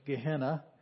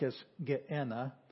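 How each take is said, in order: First: It is said with the English pronunciation. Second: It is said with the Greek pronunciation. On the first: "we pronounce it in English" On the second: "It's in Greek"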